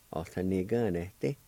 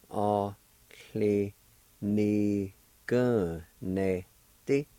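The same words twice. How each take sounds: First: Said in the usual way. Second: Cli-ni-gun-ne-ti spoken very slowly, each syllable apart; slow syllable drill. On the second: Shown as a demonstration. Teacher repeating cli-ni-gun-ne-ti slowly for students. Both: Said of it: "It's pronounced like this".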